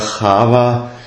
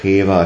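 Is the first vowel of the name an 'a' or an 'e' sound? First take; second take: a; e. First: The first vowel sounds like 'a'. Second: The first vowel sounds like 'e'. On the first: This is the older Hebrew vocalization. "im alten Hebräischen eher Chava" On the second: This is a later, partial vocalization. "teilweise aber dann auch ein Cheva gesprochen"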